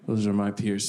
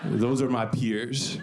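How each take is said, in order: First: Said in the usual way. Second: Slow drawn-out take. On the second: Shown as a demonstration.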